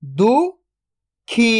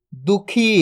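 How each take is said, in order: First: "दुखी" split into दु, then खी, very slow; spelling-lesson breakdown of "दुखी"; syllable by syllable. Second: Said in the usual way. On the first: Shown as a demonstration. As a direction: sound out दु ... खी with a long gap. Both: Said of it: "तो मिलके बन जाएगा".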